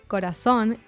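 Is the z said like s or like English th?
s. The z sounds like s, Latin American style.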